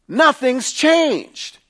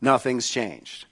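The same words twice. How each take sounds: First: Emphatic high declaration. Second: Quiet restatement. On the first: Preacher stresses point, then repeats. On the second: Preacher repeats point quietly. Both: Real, not acted.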